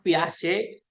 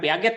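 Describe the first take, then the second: First: The ending is a soft 'zhay' with no final t. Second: The ending is read as spelled, with a hard 'get'. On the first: The speaker calls it right. "Jean Piaget" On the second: The speaker calls it wrong. "Ini bacanya itu bukan Piaget"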